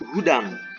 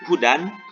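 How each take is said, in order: First: The word ends in a nasal ng sound. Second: The word ends in a clear n sound. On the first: "ataupun ikhfa hudang" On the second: "tidak dibaca izhar hudan"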